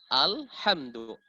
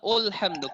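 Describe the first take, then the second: First: The first vowel is an 'a' sound. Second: The first vowel is an 'u' sound. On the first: The speaker calls it right. "makanya kita baca di situ A" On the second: The speaker calls it wrong. "pakai dhamma"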